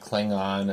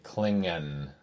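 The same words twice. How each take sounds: First: The last vowel sounds like a plain 'o'. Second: The last vowel sounds more like an 'a'. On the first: This is how it was said in later episodes. "instead of Klingon" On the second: This is how it was said in early episodes. "it's like with an A at the end. It's more like Klingon"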